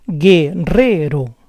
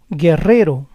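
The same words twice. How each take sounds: First: Guerrero split as gue-RRE-ro; syllable by syllable. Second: Said in the usual way. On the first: Shown as a demonstration. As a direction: say Guerrero in parts, stressing RRE. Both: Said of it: "try to understand the rules".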